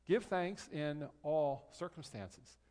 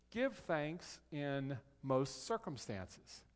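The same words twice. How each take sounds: First: Slow, with stress on ALL; corrected quote. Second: Slow, measured, drawn out around MOST; deliberate misquote. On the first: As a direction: set it right, drawing out ALL. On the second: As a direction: misquote it slowly, leaning on MOST. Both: Shown as a demonstration. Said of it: "No, that's not what it says".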